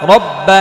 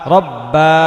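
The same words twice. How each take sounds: First: The final vowel is short and quick. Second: The final vowel is drawn out long. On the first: The speaker calls it right. "হরকত তাড়াতাড়ি পড়তে হয়" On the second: The speaker calls it wrong. "বা টান রব্বা, এভাবে বলা যাবে না"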